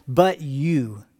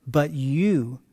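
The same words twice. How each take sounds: The two takes are said the same way.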